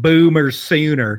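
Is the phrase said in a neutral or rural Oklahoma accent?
rural Oklahoma. It is said in a rural Oklahoma accent. "He said Boomer Sooner"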